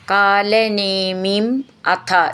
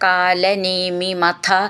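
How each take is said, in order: First: The two words are said separately. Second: The two words are run together.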